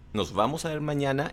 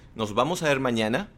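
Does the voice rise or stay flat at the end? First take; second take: flat; rise. First: The voice stays flat at the end. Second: The voice rises at the end like a question. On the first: It sounds like a statement. The speaker calls it wrong. "ya no haces la entonación" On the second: It is asked as a question. The speaker calls it right. "en vez de hacer la entonación"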